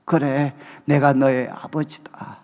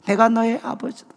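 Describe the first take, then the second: First: Lower, slow fatherly voice of God; 그래, 내가 너의 아버지다 said slowly, pitched low. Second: Said in the usual way. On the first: Retold or imitated. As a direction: speak as God, slow and deep. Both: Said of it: "하나님께서 저에게 말씀하셨어요".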